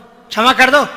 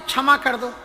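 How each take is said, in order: First: It is said harshly and demandingly. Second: It is said gently and humbly. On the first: The request lacks real feeling. The speaker calls it wrong. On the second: A sincere request for forgiveness. The speaker calls it right.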